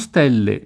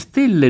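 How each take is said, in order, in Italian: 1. La e tonica è aperta. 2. La e tonica è chiusa. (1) "non stelle" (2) "si dice stelle ... stelle con le stretta"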